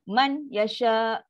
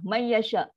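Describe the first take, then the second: First: The n is pronounced clearly before the y. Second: The n vanishes completely with no nasal hum. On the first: "Itu izhar. Kan nun bunyi jelas man" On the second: "nun ni dah tak ada. Dia terus masuk"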